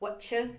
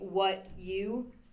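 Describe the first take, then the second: First: The words merge with a ch sound. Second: The two words are said separately. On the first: "you are like kind of making a ch sound in the middle" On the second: "as opposed to saying what you"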